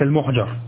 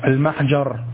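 First: The first syllable has a 'u' vowel. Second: The first syllable has an 'a' vowel. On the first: The speaker calls it wrong. "وليس" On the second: The speaker calls it right. "بفتح الميم والجيم سويا جميعا"

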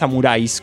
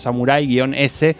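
First: The final S is joined onto the word. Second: The final S is said as a separate letter. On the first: "creo que es Samuráis, como bien debería decirse" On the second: "está escrito como Samurái-S"

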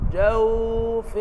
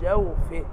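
First: The w sound is held too long. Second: The w sound is said briefly. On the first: The speaker calls it wrong. "يبقى انا ركنت على الايه" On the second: The speaker calls it right. "عايز اقول جوفه، انطق الواو بس"

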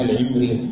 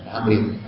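First: The first vowel is not an open 'a'. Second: The first vowel is an open 'a'. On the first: The speaker calls it wrong. "كثير من الناس يقولون العمريط" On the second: The speaker calls it right. "قد نص الشارح على فتحها"

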